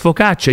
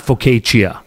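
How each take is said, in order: First: The word is said with an Italian pronunciation. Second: The word is said with an anglicized pronunciation. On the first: The speaker calls it right. "it's focaccia" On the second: The speaker calls it wrong. "you should know it's not focaccia"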